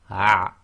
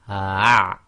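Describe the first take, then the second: First: The sound is cut off short. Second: The sound is held out long. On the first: "then you shorten it to" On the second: "the initial way to practice it is to go"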